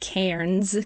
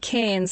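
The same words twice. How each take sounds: First: It is said in an American accent, with R. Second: It is said in an Australian accent, without R.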